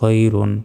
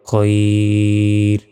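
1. শব্দটি পূর্ণ "-un" শেষ নিয়ে বলা হয়। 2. শব্দটি শেষের স্বরধ্বনি ছাড়া শেষ হয়।

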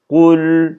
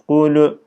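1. Kelime çıplak bir l sesiyle biter. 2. Kelime sona eklenen bir u ünlüsüyle biter. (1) "kul şeklinde" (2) "sakin lamlara hareke vermiyoruz"

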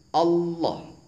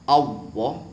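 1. Ujung lidah menyentuh di belakang gigi atas. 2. Kata ini diucapkan dengan bunyi seperti w. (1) "Yang benar adalah ujung lidah nempel di belakang gigi atas persis" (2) "Apabila diucapkan dengan menggunakan wawu, ... ini salah"

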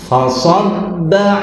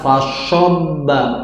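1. Konsonannya bunyi s biasa, bibir tidak dimonyongkan. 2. Konsonannya bunyi seperti sy, bibir dimonyongkan. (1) "huruf sa bukan huruf sya yang dimanyunkan bibirnya" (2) "Jadi jangan sampai dibaca fashobba"

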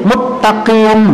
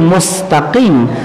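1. Bunyi s digabung menjadi t ganda. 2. Bunyi s dipertahankan sebelum t. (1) "sin ketemu ta diidghamkan sama dia, jadi muttaqin" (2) "seperti mustaqim"

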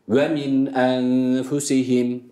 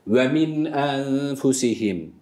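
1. Nun harfi net okunur, kelimeler ayrı kalır. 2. Nun harfi net okunur, kelimeler ayrı kalır.

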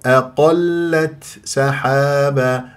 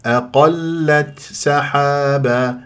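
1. التاء تُنطق مع همس خفيف لطيف. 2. التاء تُنطق مع همس خفيف لطيف.

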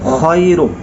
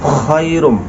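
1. শব্দটি খরখরে 'kh' দিয়ে শুরু। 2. শব্দটি খরখরে 'kh' দিয়ে শুরু।

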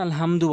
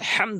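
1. h ধ্বনিটি হালকা ও শ্বাসযুক্ত। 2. h ধ্বনিটি গলার গভীর থেকে আসে। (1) "আলহামদু বলে অধিকাংশ, নামাজ ভেঙে যাবে" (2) "বড় হা আনতে হবে"

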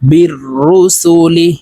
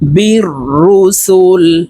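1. শব্দটি হ্রস্ব 'i' স্বরধ্বনি দিয়ে শেষ হয়। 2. শব্দটি স্বরহীন 'l' ধ্বনি দিয়ে শেষ হয়। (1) "লাম জের লি" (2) "লামকে ওয়াকফের ক্ষেত্রে সাকিন করে ফেলবো"

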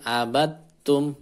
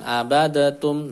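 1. Bunyi d melebur langsung ke bunyi t. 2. Bunyi d dilepas dengan sedikit memantul sebelum t. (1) "Langsung abattum" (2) "Dalnya tidak usah dikolkolohkan"

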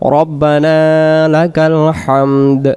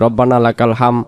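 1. শেষের 'd' ধ্বনিটি উচ্চারণ করা হয়। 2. শেষের 'd' ধ্বনিটি বাদ যায়।

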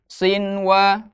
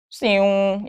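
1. Bunyi n diucapkan dengan jelas sebelum w. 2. Bunyi n menyatu ke dalam w. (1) "tapi sinwa" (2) "Jadi tidak siung ya"

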